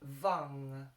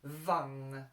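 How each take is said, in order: First: The vowel sits between U and A. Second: The same.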